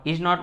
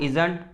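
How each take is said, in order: First: Two separate words, is and not. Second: The words merge into one contracted word.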